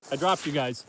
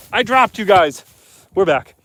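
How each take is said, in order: First: Said in the usual way. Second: Louder and higher, telling the viewers; raised voice, higher, telling the chat; louder announcement. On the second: Real, not acted. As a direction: call it out to the stream so everyone hears. Stream cut out, repeats to viewers.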